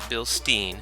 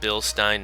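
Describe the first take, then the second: First: The ending is said the English way. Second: The ending is said like German 'Stein'. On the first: The speaker calls it wrong. "not Bilstein" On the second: The speaker calls it right. "they pronounce it Stein, which is the same pronunciation as their wonderful beer mugs"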